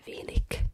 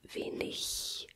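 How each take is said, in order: First: The final g is said as a hard k. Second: The final g is said as a soft 'ich' sound. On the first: This is how some regional dialects say it. "that the G turns to an K" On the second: This is the standard German way to say it. "it's gonna be the same as an ich"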